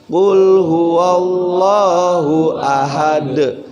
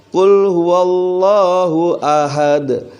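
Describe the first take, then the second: No difference in how they are said.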